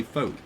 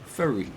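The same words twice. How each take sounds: First: New York accent. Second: Said in the usual way. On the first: Shown as a demonstration. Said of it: "You say". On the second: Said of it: "you don't say".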